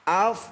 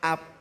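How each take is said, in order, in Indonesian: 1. Kata ini berakhir dengan bunyi f. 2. Kata ini berakhir dengan bunyi p. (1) "Af bukan ap" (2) "Itu poa ap namanya"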